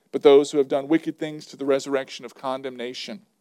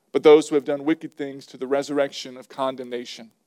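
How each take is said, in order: Both takes have the same delivery.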